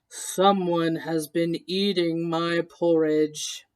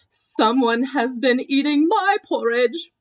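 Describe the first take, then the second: First: It is said in a great big voice. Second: It is said in a middle-sized voice.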